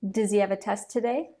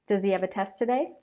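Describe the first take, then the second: First: The H sounds in he and have are dropped. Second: The H sounds in he and have are dropped.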